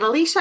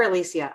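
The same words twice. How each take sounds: First: "Alicia" with a sh sound, ah-LEE-sha; first pronunciation option. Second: "Alicia" with an s sound, ah-LEE-see-ah; alternative pronunciation. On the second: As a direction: say "Alicia" as ah-LEE-see-ah, offered as the other option. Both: Shown as a demonstration. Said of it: "is it Alicia or Alicia".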